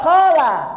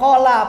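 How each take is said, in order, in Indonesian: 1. Kedua vokal dibaca panjang. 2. Vokal pertama panjang, vokal kedua pendek. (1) "Keduanya berkata" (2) "qala panjang, lanya pendek berkata"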